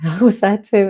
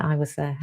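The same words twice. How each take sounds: First: Laughing. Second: Said in the usual way. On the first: Real, not acted. Laughing admission of same mess.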